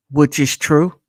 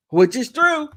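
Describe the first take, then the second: First: Said in the usual way. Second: Laughing, pitched higher. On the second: Real, not acted. Host repeating his verdict, laughing. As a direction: say it again through a laugh.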